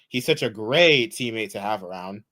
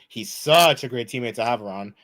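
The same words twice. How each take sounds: First: It is said with a fitting kind of sarcasm. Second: It is said with a mismatched kind of sarcasm. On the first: The speaker calls it right. "It should have been" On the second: The speaker calls it wrong. "I used the wrong form of sarcasm"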